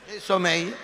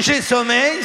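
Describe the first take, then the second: First: Lightly voiced drowsy husband; mock sleepy man. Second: Said in the usual way. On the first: Shown as a demonstration. Husband saying he is sleepy, a hint of drowsy voice. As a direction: say it like a man ready for bed. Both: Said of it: "ça veut dire".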